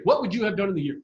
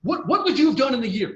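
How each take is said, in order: First: Said in the usual way. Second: "you" pushed higher and louder, slightly raised; stress on you. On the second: Real, not acted. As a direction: lean hard on "you" in "What, what would you have done".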